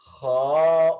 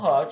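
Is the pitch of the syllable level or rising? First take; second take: rising; level. First: The pitch rises on the syllable. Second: The pitch stays level on the syllable. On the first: It means 'and'. "ऊपर जा रही है आवाज" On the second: It means 'to drink'. "Straight बोलना उसको"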